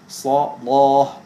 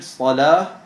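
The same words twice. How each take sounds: First: The L is pronounced dark and heavy. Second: The L is pronounced light and clear. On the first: "sondern dass man das L dunkel spricht" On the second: "dass man nicht das L hell spricht"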